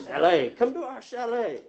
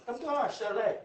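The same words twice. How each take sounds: First: A higher, louder, sales-pitch invitation where "chalet" is said the plain English way, shay-LAY; inviting chalet. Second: A light mock Mexican accent, pitched higher, on "Come to our chalet"; playful put-on Mexican accent rolling out "chalet". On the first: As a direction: savour the word "chalet" like an advert for the Swiss Alps. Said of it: "Chalet, I love that word". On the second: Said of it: "when you say it with a Mexican accent". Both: Shown as a demonstration.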